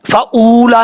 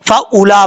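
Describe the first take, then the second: First: फ़ाऊला with the वाव pronounced long; wrong reading. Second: फ़ाऊला with the वाव silent and not stretched; correct reading. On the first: (फ़ाऊला में वाव को लंबा खींचकर, गलत तरीका) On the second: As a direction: say फ़ाऊला short, without lengthening the वाव. (फ़ाऊला में वाव को खामोश रखकर, बिना खींचे) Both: Shown as a demonstration. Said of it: "फ़ाऊला नहीं पढ़ना".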